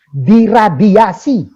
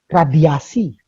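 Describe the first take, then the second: First: "diradiasi" drawn out slowly and loud; heavy emphasis. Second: "radiasi" set apart, falling at the end; subdued emphasis. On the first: Host stressing the shocking treatment, "diradiasi" loud and stretched out. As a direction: hammer each syllable of "diradiasi". Repeats it heavily for impact. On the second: Host dwelling on the treatment he heard about, "radiasi" said low-key and falling. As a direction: let "radiasi" drop and land alone. Repeats the word that struck him. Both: Shown as a demonstration.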